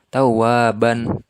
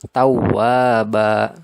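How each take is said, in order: First: The word ends in a short 'ban' sound. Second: The word ends in a long 'ba' vowel. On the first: The speaker calls it wrong. "Jangan sampai dibaca tawwaban. Nah, itu salah ya" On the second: The speaker calls it right. "Tapi ba panjang"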